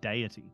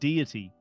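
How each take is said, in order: First: The word is said in an English accent. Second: The word is said in an American accent. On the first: "us real English speakers who say deity" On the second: "Americans say the word deity"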